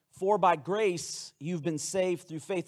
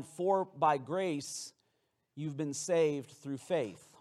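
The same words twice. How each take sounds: First: Said in the usual way. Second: Each word slow and weighted, For by grace; solemn scripture reading; slow emphatic verse. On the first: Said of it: "repeating the verse". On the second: Shown as a demonstration. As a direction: lean on grace and saved. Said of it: "quoting the key verse".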